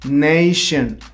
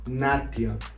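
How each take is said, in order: First: The ending is said like 'shun'. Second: The ending is said like 'tee-on'. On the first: The speaker calls it right. "You pronounce it shin" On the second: The speaker calls it wrong. "it's not pronounced tion"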